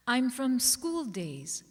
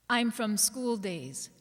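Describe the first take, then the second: No difference in how they are said.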